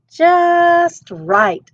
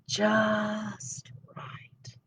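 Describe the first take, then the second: First: High, loud and pleased at last; delighted. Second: Drowsy whisper, much softer; murmured. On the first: Aluki trying boots, high and delighted. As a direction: Aluki finally finds boots that fit. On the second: Aluki in the smallest bed, sleepy whisper. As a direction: sink into it half asleep. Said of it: "Aluki murmured". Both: Acted.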